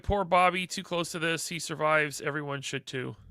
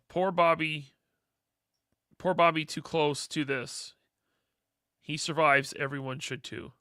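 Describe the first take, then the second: First: It is read at a normal, quicker pace. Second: It is read slowly and deliberately.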